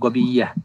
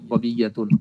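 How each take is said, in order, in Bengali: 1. শব্দটি সংক্ষিপ্তভাবে শেষ হয়, শেষের -tun ছাড়া। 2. শব্দটি পূর্ণভাবে শেষ হয়, শেষের -tun সহ। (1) "সংক্ষেপে বলে গবিয়া" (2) "পরিপূর্ণ উচ্চারণ করেই পড়ি"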